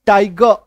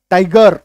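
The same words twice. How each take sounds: First: टाइगर as "tai-guh", ending on the open vowel; semi-silent R. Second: टाइगर with the final र clearly pronounced; everyday sounded R. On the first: Teacher giving the actual pronunciation, टाइगर without its R. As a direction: drop the final र of टाइगर. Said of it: "actual उच्चारण". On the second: Teacher showing how we normally say it, टाइगर with R sounded. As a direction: finish टाइगर on a full R. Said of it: "हम लोग normally बोलचाल में बोलते हैं". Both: Shown as a demonstration.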